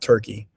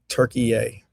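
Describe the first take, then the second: First: The name has two syllables, ending in 'key'. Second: The name has three syllables, ending in 'yeh'. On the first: The speaker calls it wrong. "not Turkey" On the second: The speaker calls it right. "Got to make sure I pronounce it right"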